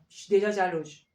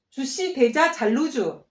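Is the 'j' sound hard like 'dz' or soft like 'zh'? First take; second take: soft zh; hard dz. First: The j sounds are soft, French-like 'zh' sounds. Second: The j sounds are hard, Korean-like 'dz' sounds. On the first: The speaker calls it right. "이렇게 발음을 하면 프랑스 사람들이 저에게 너 프랑스에서 태어났니?" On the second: The speaker calls it wrong. "신경 써서 하지 않으면 ... 이게 정말 안 예쁜 발음이에요"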